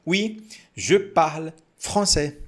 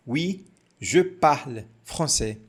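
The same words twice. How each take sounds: The two takes are said the same way.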